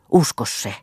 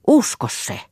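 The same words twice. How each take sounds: First: Whispered plea. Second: "Usko se" cried out much higher and louder; urgent plea. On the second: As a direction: burst out begging him to believe. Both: Acted. Pleading lover repeats plea.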